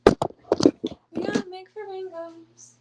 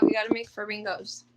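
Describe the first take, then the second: First: High, slow and louder sing-song. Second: Said in the usual way. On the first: Shown as a demonstration. Owner singing the plan to the pets, high slow sing-song.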